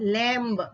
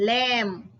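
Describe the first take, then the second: First: The final B is sounded. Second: The final B is silent. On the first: The speaker calls it wrong. "Not lamb" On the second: The speaker calls it right. "it's called lamb"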